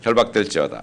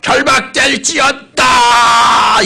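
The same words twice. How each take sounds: First: It is said calmly and quietly. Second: It is shouted loudly.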